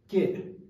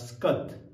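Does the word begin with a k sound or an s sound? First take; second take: k sound; s sound. First: The word begins with k, no s sound. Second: The word begins with an s-k cluster. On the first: "Sa kata kada ke" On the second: "Ladakhi would read it as"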